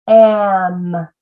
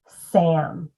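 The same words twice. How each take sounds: First: AM drawn long after a separate S; sounds stretched apart. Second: Said in the usual way. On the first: Shown as a demonstration. Teacher arm-tapping Sam, sounds stretched apart. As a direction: hold each sound of AM, slowly joined. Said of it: "do it again with Sam". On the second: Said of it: "And then we blend it".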